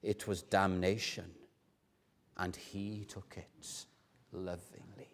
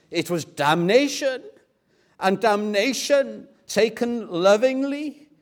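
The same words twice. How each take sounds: First: Low and soft, fading almost to nothing; hushed, overcome repetition. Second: Loud, raised, ringing declaration; impassioned pleading. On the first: Professor in tears repeating it to his class, low and hushed. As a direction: repeat it tenderly, hinting at half sob, half laugh. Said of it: "a mix between a half sob and a half laugh". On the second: Professor pleading with his Hebrew class, loud and fervent. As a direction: proclaim the answer with urgent fervour. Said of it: "pleads with them". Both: Acted.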